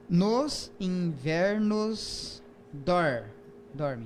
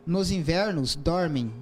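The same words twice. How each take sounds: First: "Nos invernos dorme" spelled out very slowly syllable by syllable; "Nos invernos dorme" broken into slow counted beats; syllable counting. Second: Haiku reading. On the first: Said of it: "vamos contar as sílabas poéticas". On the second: Reads haiku aloud. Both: Shown as a demonstration.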